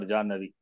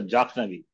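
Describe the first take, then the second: First: The middle consonant is a doubled n sound. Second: The middle consonant is a kh sound before n. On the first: The speaker calls it right. "Pronunciation of Jan, I mean, uh, Janhavi or Jannavi" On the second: The speaker calls it wrong. "not uh, Jakhnavi"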